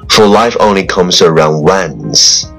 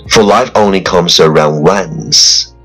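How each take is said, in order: No difference in how they are said.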